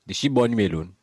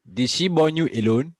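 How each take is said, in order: First: Said in the usual way. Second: "Did she born you alone?" repeated higher and louder, stress on "born", rising at the end; emphatic repeat. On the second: Real, not acted. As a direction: push the repeat up, hitting "born".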